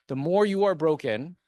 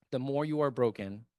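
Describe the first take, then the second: First: Louder, rising on more, pressing the point; emphatic opening. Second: Said in the usual way. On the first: Real, not acted. Councilman urging broken listeners to run, emphatic louder. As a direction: hit the first "The more you are broken" hard. Rhetorical repetition building.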